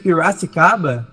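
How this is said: The r is a strongly curled country r.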